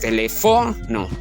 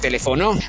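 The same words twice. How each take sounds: First: The stress is on the third syllable. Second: The stress is on the fourth syllable. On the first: "Si llevara la fuerza de voz en fo" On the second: "Y si llevara la fuerza de voz en no"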